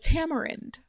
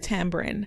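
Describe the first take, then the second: First: It is said with a non-Jamaican pronunciation. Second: It is said with a Jamaican pronunciation. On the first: This is how the listener may say it. "you may pronounce it as tamarind" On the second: This is how the speaker says it. "because I'm Jamaican, I pronounce it tamarind"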